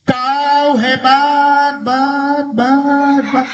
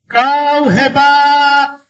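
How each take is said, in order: First: High, long call with bouncing last syllable; imitated echo. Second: Very slow, high, sustained call; storytelling shout. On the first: Mountain returns the father's praise, imitated echo. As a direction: stretch it out, then repeat the tail. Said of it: "Karena jawab". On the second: A narrator's reading. Father shouting praise toward the mountain, drawn-out shout. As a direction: send it across the mountains, long and high.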